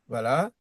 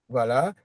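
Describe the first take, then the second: The two takes are said the same way.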